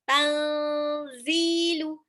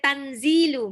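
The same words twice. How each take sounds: First: The n is hidden, nasal and held longer. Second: The n is pronounced fully and clearly. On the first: The speaker calls it right. "Nun sukunnya kayak mau loncat ke zai" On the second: The speaker calls it wrong. "nggak boleh tanzilu"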